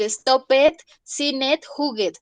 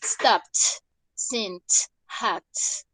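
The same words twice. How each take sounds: First: "stop it, sin it, juguet" with "ed" as its own syllable; incorrect extra syllable. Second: "Stopped, sint, hacked" each one syllable closed by a T; correct final T. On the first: Teacher showing students what not to say, extra-syllable endings. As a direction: read "stop it, sin it, juguet" the Spanish way, two syllables each. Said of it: "No es correcto decir".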